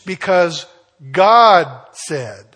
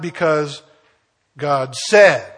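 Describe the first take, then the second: First: The word God is stressed. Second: The word said is stressed. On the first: The power comes from who spoke. The speaker calls it right. "It's the source of the power" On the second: The power comes from the act of speaking. The speaker calls it wrong. "not the method of the power"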